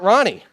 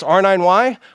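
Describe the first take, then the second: First: It is spoken as a single two-syllable word. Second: It is spoken as separate letters and number. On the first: "my preferred way to say this" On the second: "We can say it's R nine Y"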